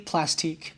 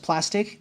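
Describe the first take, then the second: First: The word ends with a long 'teek' sound. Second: The word ends with a short 'tick' sound. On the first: The speaker calls it right. "it's definitely Plastique" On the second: The speaker calls it wrong. "if it was just plastic, they would have just spelled it with a C"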